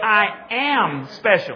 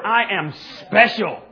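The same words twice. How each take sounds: First: The stress is on the word 'am'. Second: The stress is on the word 'special'. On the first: "now I want you to emphasize the second word" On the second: "Now you get to emphasize the last word"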